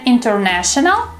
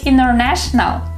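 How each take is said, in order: First: The T after N is clearly pronounced. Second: The T after N is dropped. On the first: The speaker calls it wrong. "instead of saying" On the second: The speaker calls it right. "the T disappears"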